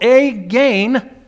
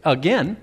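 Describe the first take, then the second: First: "again" with a long AY in both syllables; "again" stretched to rhyme with gain; mispronounced "again". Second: "again" said as uh-GEN; corrected pronunciation. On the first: Real, not acted. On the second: Shown as a demonstration. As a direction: say "again" with a short e, rhyming with ten. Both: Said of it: "terrible pronunciation".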